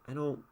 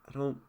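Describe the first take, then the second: Both takes have the same delivery.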